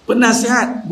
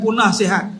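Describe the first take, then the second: First: "Penasihat" said as one word with a short first syllable; correct word penasihat. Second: "punah sihat" split into two words, punah then sihat; punning mispronunciation. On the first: Preacher correcting a pun on the wife's role, "Penasihat" as one word. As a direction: say "Penasihat" as a single word, adviser. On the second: Preacher warning wives off ruining health, "punah sihat" as two words. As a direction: turn penasihat into "punah sihat". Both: Shown as a demonstration. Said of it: "bukan punah sihat".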